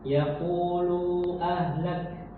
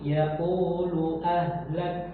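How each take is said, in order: First: A vowel is drawn out longer. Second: The vowel is kept short, said directly. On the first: The speaker calls it wrong. "jangan memanjangkan" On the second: The speaker calls it right. "Tapi yaqulu ahlak langsung"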